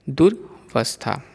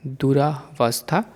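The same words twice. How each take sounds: First: दुर्वस्था with र्व joined; the proper दुर्वस्था; correct form. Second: दुरावस्था with a long रा; the mistaken दुरावस्था; wrong form. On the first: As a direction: say दुर्वस्था, no vowel after र. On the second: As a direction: say दुरावस्था, रा stretched. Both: Shown as a demonstration. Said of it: "अशुद्ध और शुद्ध रूप".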